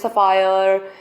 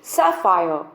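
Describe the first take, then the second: First: The first vowel is a short, weak 'uh'. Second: The first vowel is an open 'a' as in cat. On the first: The speaker calls it wrong. "काफ़ी लोग बोलते हैं सफायर" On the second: The speaker calls it right. "It's actually सैफायर"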